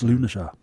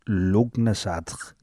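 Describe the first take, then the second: First: The word is shortened, with some letters silent. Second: The word is read out as it is spelt. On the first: The speaker calls it right. "according to sources I looked at... It's Lunasar" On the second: The speaker calls it wrong. "to look at it phonetically, it says Lugnasadr"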